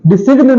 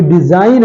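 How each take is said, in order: First: डिसिग्न with short i and hard g; wrong pronunciation. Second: Said in the usual way. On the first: Shown as a demonstration. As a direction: sound s and g in डिसिग्न. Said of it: "नहीं है बेटा". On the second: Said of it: "इसमें जी क्या है".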